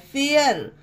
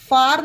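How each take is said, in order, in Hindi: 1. स्वर एक 'air' ध्वनि है। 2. स्वर एक लंबी खुली 'ah' ध्वनि है। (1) "फेयर पढ़ेंगे ... एयर हो गया है" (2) "इसे फार नहीं पढ़ेंगे"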